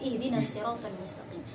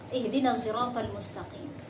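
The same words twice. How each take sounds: First: The s in siratal is a plain sin. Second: The s in siratal is a blended ishmam.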